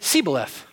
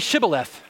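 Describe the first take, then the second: First: The word begins with an 's' sound. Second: The word begins with a 'sh' sound. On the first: The speaker calls it wrong. "they could not pronounce the SH sound" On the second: The speaker calls it right. "well, say Shibboleth"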